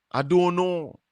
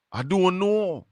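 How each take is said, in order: Both takes have the same delivery.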